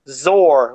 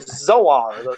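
First: The name is said rhyming with roar. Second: The name is said not rhyming with roar. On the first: This is the version heard in the audio productions. "you hear Zor, like a roar" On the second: This is the version heard in the animated series. "from Filmation, we clearly hear Zoar"

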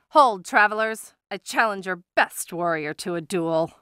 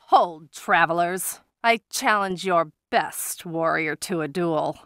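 First: It is delivered faster, with eager energy. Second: It is delivered at a slower, plainer pace.

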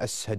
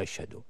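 First: The middle consonant is pronounced as 's'. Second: The middle consonant is pronounced as 'sh'. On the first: "ينطق الشين ينطقها سين، يقول أشهد" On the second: "وما يقول أشهد"

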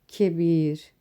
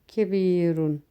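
First: The word ends without the -un ending. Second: The word ends with the -un ending. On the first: The word is cited on its own, outside a sentence. "Önce sagir ve kebir şeklinde okudum. Çünkü yalın halde bu şekilde okunur" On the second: The ending shows the word's role in the sentence. "kebirun şeklinde okudum"

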